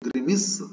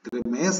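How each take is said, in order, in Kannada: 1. ಎರಡನೇ ಉಚ್ಚಾರಾಂಶದಲ್ಲಿ ಹ್ರಸ್ವ 'i' ಸ್ವರ ಇದೆ. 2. ಎರಡನೇ ಉಚ್ಚಾರಾಂಶದಲ್ಲಿ ದೀರ್ಘ 'ay' ಸ್ವರ ಇದೆ. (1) "ಇದು ಗ್ರಿಮಿಸ್" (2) "ಗ್ರಿಮೇಸ್ ಅಲ್ಲ ಇದು"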